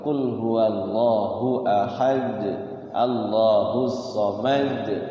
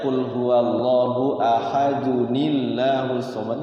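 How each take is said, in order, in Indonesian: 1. Ahad berhenti dengan gema memantul pada huruf d terakhir. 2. Ahad mengalir lancar ke kata berikutnya, tidak memantul. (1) "kalau diwakafkan qalqalah kubro jadi qalqalah" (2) "ketika wasal tidak jadi qalqalah, nggak ada qalqalahnya, nggak bunyi, nggak mantul"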